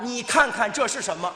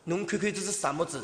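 First: It is said in standard Mandarin. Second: It is said in a Shanghai accent.

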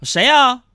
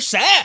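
First: It is asked in a calm voice. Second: It is shouted in an angry voice.

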